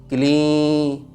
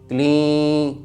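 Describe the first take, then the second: No difference in how they are said.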